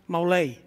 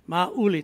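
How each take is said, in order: First: The name is said in a French-sounding way. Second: The name is said in the Filipino way. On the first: This is how people in another country say it. "here in the United States, it is something different pronunciation. It's pronounced Maulay. Sounds like French" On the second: This is how the speaker's own people say it. "That's the way Filipinos pronounce it"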